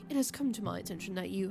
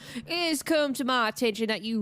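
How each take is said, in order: First: It is read in a neutral accent. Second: It is read in a country accent.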